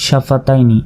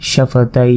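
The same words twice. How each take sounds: First: Said in the usual way. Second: সাফা তাই with "taiii" held very long and closed on n; stretched pausal form. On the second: Shown as a demonstration. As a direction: draw out the last syllable of সাফা তাই on one note. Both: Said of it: "আর যদি আমরা ওয়াকফ করি".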